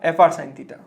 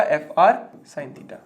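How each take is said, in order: First: Said in the usual way. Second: F R sin theta said slowly, word by word; slow dictation. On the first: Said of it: "यहाँ पूरा लिख लो आप". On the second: Shown as a demonstration. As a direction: spell out F R sin theta slowly so they can write it. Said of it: "क्या आएगा आपका". (धीरे-धीरे लिखवाते हुए)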